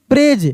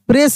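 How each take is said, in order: First: The word ends with a z sound. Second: The word ends with an s sound. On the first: The speaker calls it right. "ये एस ई को ज के रूप में पढ़ेंगे" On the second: The speaker calls it wrong. "प्रेस नहीं"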